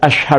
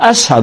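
First: It is said with a clear 'sh' sound. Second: It is said with an 's' sound instead. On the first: This is how the word should be said. "بخواست بگه" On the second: The speaker could not produce the 'sh' sound. "بلال مخرج شین هم نداشت"

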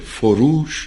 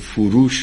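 First: The second vowel is a long 'oo' sound. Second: The second vowel is a short 'o' sound. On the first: The speaker calls it right. "دو تا واک یا صداست، اولی او دومی او" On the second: The speaker calls it wrong. "نگیم"

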